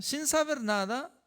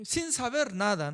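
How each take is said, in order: First: "Sin saber nada" said higher, rising on "saber"; emphatic repeat. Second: Said in the usual way. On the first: Shown as a demonstration. Preacher repeating the point to his listeners, emphatic rise on "saber". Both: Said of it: "¿no?".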